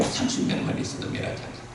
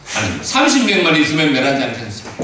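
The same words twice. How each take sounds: First: Low, hushed answer; quiet God's reply. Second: High, loud, earnest plea; pleading Abraham. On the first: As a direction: answer softly, almost breathed. God answering Abraham. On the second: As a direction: beg God for the city. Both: Acted.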